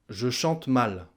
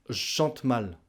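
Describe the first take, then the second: First: The vowel of je is fully pronounced. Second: The vowel of je is dropped.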